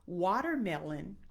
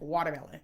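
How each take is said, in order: First: The word is said at normal speed, clearly. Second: The word is said too fast and slurred.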